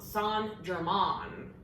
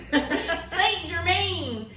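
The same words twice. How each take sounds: First: Saint is pronounced the French way, as in Laurent. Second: Saint is pronounced like the English word saint. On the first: The speaker calls it right. "like Saint Laurent" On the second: The speaker calls it wrong. "I was saying Saint Germain, like it's a dude"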